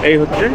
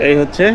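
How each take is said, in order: Both takes have the same delivery.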